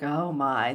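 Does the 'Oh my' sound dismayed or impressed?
dismayed. It sounds dismayed, like something bad.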